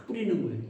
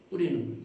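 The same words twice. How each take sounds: The two takes are said the same way.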